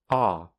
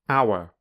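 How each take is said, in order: First: The vowel is shortened and reduced. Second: The vowel is a full, clear diphthong. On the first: "then the weak form" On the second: "I'll firstly say the strong form"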